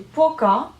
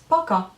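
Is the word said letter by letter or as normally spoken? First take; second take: letter by letter; normally spoken. First: The word is read exactly as it is spelled. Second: The word is said the way people normally speak. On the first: "ça s'écrit пока" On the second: "mais ça se prononce пока"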